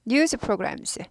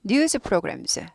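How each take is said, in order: The two takes are said the same way.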